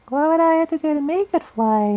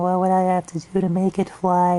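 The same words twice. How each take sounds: First: It is said in a high falsetto voice. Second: It is said in a normal speaking register.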